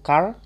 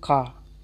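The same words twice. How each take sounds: First: The final r is clearly pronounced. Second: The final r is barely heard. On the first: "kalau American itu car" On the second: "kalau British itu car"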